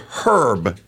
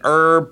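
First: The h at the start is pronounced. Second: The h at the start is silent. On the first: "I'm going to spend a whole day pronouncing it herb" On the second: "That there is an herb planter"

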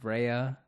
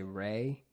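First: The name is said as two syllables. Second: The name is said as one syllable. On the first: The speaker calls it right. "But it's Rhea" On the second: The speaker calls it wrong. "I keep mispronouncing it. I've always said, for some reason, I say Ray"

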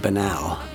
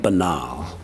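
First: The word has an American pronunciation. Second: The word has a British pronunciation. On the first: The speaker sounds like an American. "American in the sense that he'd say banal" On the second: The speaker sounds like a Briton. "not banal"

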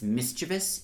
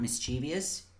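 First: The word is said with three syllables. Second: The word is said with four syllables. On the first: The speaker calls it right. "That's how you say it because that's how it's spelled" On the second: The speaker calls it wrong. "not mischievous"

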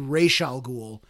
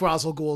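First: The name is pronounced the original way. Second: The name is pronounced the way the film does. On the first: The speaker calls it right. "It's actually Ra's al Ghul" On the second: The speaker calls it wrong. "I know I'm pronouncing it wrong"

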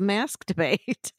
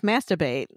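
First: The phrase is said at a normal, clear pace. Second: The phrase is said fast, running the words together.

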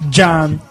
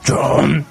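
First: It is said in an English accent. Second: It is said in a Russian accent.

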